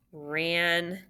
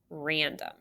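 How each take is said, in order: First: Random broken as Ran, pause, dum; split into syllables. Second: Said in the usual way. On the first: Shown as a demonstration. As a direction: say Random in two separated syllables. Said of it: "Scoop your syllables".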